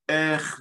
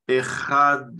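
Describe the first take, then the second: First: The word is clipped, dropping the final vowel. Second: The word is said in full, vowel included. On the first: The reader is rushing and skips part of the word. The speaker calls it wrong. "il va dire Ech" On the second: The reader takes time to say the whole word. The speaker calls it right. "Il va pas dire Echad"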